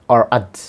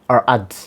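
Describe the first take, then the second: No difference in how they are said.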